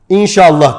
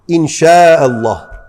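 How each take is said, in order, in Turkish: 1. 'llah' öncesindeki ünlü kısa ve kesik. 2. 'llah' öncesindeki ünlü uzun uzatılmış. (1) "siz inşallahı da doğru söylemiyorsunuz. İnşallah diyorsunuz" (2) "Öyle okunuyor"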